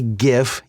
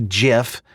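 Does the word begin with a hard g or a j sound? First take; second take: hard g; j sound. First: The word begins with a hard g sound. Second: The word begins with a j sound. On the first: This is the speaker's own way of saying it. "I say GIF because GIF is an acronym for Graphics Interchange Format" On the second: This is how other people may say it. "you might say GIF"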